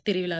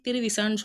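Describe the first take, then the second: First: திருவிழா with a ழ sound, not s; correct pronunciation. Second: திருவிசான்னு with an s in place of ழ; mispronunciation. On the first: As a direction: curl the tongue on the last syllable of திருவிழா. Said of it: "திருவிழா தான் correct". (திருவிழா என ழகர ஒலியுடன்) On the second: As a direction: show the slip திருவிசான்னு, "thiruvisa" for thiruvizha. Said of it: "அது தவறு". (ழகரத்தை சகரமாக்கி திருவிசான்னு) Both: Shown as a demonstration.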